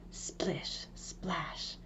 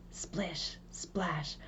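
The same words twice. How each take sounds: The two takes are said the same way.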